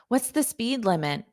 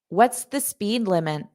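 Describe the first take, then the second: No difference in how they are said.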